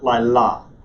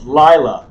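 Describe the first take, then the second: First: The stress is on the second syllable. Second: The stress is on the first syllable. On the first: The speaker calls it wrong. "not Lila" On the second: The speaker calls it right. "That accent tells you where to place the emphasis on that first syllable"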